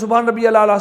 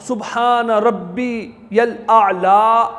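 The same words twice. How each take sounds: First: It is said fast and hurried. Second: It is said slowly and calmly.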